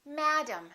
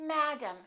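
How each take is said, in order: No difference in how they are said.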